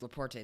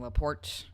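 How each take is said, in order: First: The name is said with a Spanish pronunciation. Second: The name is said with a French pronunciation.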